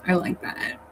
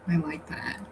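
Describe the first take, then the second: First: Said in the usual way. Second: Breathy, hushed whisper; whispered repeat. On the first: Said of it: "repeats it, then whispers". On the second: Shown as a demonstration. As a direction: whisper it back to yourself. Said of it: "repeats it as whisper".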